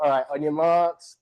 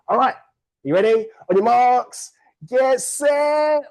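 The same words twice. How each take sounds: First: Said in the usual way. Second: High, loud starter's call to the room; rally the racers like a starter. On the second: Real, not acted. Host starting the race for the room, loud high call.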